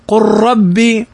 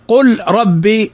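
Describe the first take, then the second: First: The l is merged into a doubled r. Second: The l is pronounced clearly before the r. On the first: The speaker calls it right. "مضغما" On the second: The speaker calls it wrong. "فلا تقول على قراءة حفص قل ربي"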